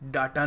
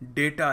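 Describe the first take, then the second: First: The first vowel is an open 'ah' sound. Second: The first vowel is an 'ay' sound. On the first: The speaker calls it wrong. "डाटा नहीं है" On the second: The speaker calls it right. "डेटा है। डी ए वाई टी ए।"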